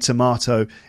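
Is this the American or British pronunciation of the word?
British. It is said with a British pronunciation. "in the UK, we'd say tomato"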